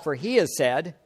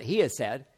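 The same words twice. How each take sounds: First: Said in the usual way. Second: "has" leaned on; weight the word "has"; stress on has. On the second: Shown as a demonstration. To the congregation, rephrasing with "has" stressed. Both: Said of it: "now I'm gonna phrase that".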